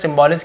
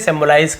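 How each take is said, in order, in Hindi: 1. यह शब्द छोटी 'lis' ध्वनि पर खत्म होता है। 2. यह शब्द लंबी 'lize' ध्वनि पर खत्म होता है। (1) "अलग भाषा में इसका उच्चारण सिंबॉलिस किया जाता है" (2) "अमेरिकन एक्सेंट में इसे सिंबलाइज कहते हैं"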